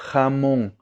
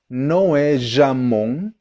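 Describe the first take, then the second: First: Jamón with a rough throaty h, ha-MON; Spanish J. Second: Jamón like zha-MON, the wrong way; wrong Portuguese J. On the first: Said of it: "O som do J em espanhol". (jamón com j espanhol, aspirado) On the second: (jamón com j português, errado) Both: Shown as a demonstration.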